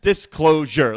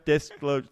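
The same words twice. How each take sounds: First: "Disclosure" punched loud, syllable by syllable; emphatic word. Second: Said in the usual way. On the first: Shown as a demonstration. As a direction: hit each syllable of "Disclosure" hard. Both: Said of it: "Three syllables".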